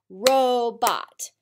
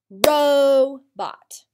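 First: Robot as two clapped beats, ro-bot; clapped syllables. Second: Robot louder, ro-bot with a long open O; emphatic syllables. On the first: Teacher leads class clapping syllables, beat by beat. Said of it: "Clap them out with me". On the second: Teacher stresses the long O, louder and slower. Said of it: "long O comes at the end of the first syllable". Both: Shown as a demonstration.

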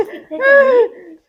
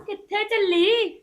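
First: Slow, loud, laughing and wailing at once; ਕਿੱਥੇ ਚੱਲੀ stretched slow with a cackling wail; eerie ghost taunt. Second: Said in the usual way. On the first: Acted. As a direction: drag it out like a haunting spirit. Possessed daughter-in-law taunts mother.

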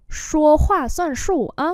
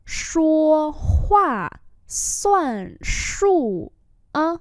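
First: Said in the usual way. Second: Very slow, syllable by syllable; slow model reading. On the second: Shown as a demonstration. Teacher repeating a phrase for learners, very slowly. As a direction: draw out each tone.

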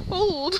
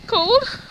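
First: Said in the usual way. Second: High, loud rising "Cold?"; squeaky surprised question. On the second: Real, not acted. Asks about the cold.

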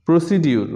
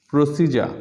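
First: প্রসিডিউর with "di-ur" at the end; common mispronunciation. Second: প্রসিজার with a j before the end; correct pronunciation. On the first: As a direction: say প্রসিডিউর as "pro-si-diur". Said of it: "common কিছু শব্দের". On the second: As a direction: say প্রসিজার as "pro-SEE-ja". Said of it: "ও সঠিক উচ্চারণ". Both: Shown as a demonstration.

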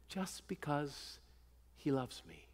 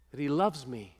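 First: Hushed tender repeat. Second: Said in the usual way. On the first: Shown as a demonstration. Preacher to his flock, repeating softly, hushed and slow. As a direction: drop to a soft, slowed hush on just because he loves me.

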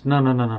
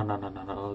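First: Said in the usual way. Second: Fading no's. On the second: Acted. Scrooge refusing, fading away.

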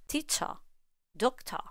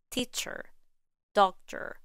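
First: British "Teacher, doctor" ending in a plain schwa, no R; British English. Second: American "Teacher, doctor" with R-coloured endings; American English. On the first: Teacher showing the schwa endings, British English accent. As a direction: drop the final R in "Teacher, doctor", British style. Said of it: "in British English". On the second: Teacher showing ER and OR reduced to schwa, American accent. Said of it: "In American English, the E R in teacher". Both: Shown as a demonstration.

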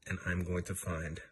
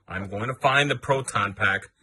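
First: Said in the usual way. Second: Louder, slow and deliberate; emphatic restart. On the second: Shown as a demonstration. Restating the vow to hunt the ghost, louder and slower. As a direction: lean in hard on the vow.

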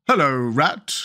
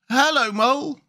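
First: Reserved greeting, near usual pitch; Mole. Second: High-pitched animal greeting; high Water Rat character voice. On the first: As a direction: answer slowly in a character voice. The Mole answers Rat. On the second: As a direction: greet in a much higher voice. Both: Acted.

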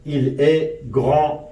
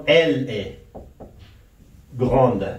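First: Slow French "grand" with a silent d; final consonant silent. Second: Slow French "grande" with an audible final d; final consonant pronounced. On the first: Teacher giving the masculine example slowly, "grand" with no final d. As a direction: say it slowly, ending "grand" on the nasal vowel. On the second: Teacher giving the feminine example slowly, "grande" with the d sounded. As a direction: pause before "grande", then finish it on a clear d. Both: Shown as a demonstration.

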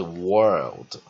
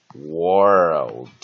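First: Said in the usual way. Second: "world" with the OR vowel drawn out long; teacher's drawn-out model of "world". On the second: Shown as a demonstration. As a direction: stretch the vowel in "world", loud and deliberate. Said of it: "念长母音".

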